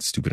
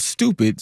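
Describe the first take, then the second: First: Said in the usual way. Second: STUPID punched higher, as if capitalized; all-caps STUPID. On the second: Retold or imitated. Host quoting a president's all-caps post, stress on STUPID. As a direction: hit STUPID like it's written in capitals. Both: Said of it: "stupid in all caps".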